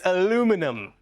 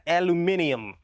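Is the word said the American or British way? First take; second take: American; British. First: Four syllables, ending in 'num'. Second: Five syllables, ending in 'nium'. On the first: The speaker calls it right. "It's aluminum" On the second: The speaker calls it wrong. "they say the word wrong in that country"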